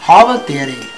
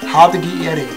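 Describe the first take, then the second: First: The phrase is contracted into one run-together word. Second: The phrase is said as three separate words. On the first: It is the Bavarian form of the greeting. "heißt auf gut Hochdeutsch" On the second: It is the Standard German form. "auf gut Hochdeutsch"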